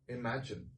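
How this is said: The word sounds dark and gloomy. It implies it will never happen. "it just becomes a, a dark mood"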